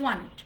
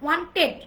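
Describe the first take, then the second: First: "wanted" as WAN-et, t dropped; "wanted" lighter, second syllable reduced; corrected pronunciation. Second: "wanted" as WAN-TED, hard t; "wanted" with both syllables heavy; wrong pronunciation. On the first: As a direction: say wanted softly without the middle t. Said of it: "it's wanted". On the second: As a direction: say wanted with a full stressed "ted". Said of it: "not wanted". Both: Shown as a demonstration.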